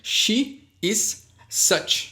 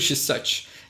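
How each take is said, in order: First: The words are said fully and separately. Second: The words are contracted and run together.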